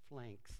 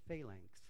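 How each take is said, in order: First: The word is said with one syllable. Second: The word is said with two syllables. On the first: The speaker calls it wrong. "I can butcher it saying flanks" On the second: The speaker calls it right. "I think it's phalanx"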